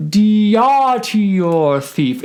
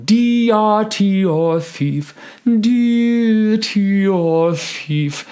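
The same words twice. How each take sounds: First: "deity" punched higher and louder; wrong emphasis. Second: "deity" said lightly, higher, slowly; natural vowels. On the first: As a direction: hit "deity" hard and break the phrase. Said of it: "If we do that, we've interrupted the phrase". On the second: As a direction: keep "deity" natural and flowing. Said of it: "deity instead of deity". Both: Shown as a demonstration.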